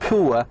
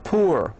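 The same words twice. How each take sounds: First: It is said with a British accent, no R. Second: It is said with an American accent, R sounded.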